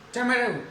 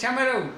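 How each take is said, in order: The two takes are said the same way.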